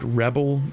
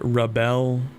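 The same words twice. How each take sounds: First: It is pronounced the way the noun is. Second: It is pronounced the way the verb is. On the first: It names a person who rebels. "the word rebel is a noun" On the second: It names the act of rebelling. "the word rebel is a verb"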